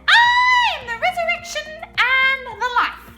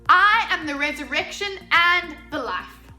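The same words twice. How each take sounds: First: It is said in a very high voice. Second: It is said in a normal voice.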